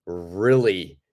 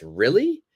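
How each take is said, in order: First: Said in the usual way. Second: "Really?" climbing high on the last syllable; rising intonation. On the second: Shown as a demonstration. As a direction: lift "Really?" into a surprised question. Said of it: "your intonation goes up".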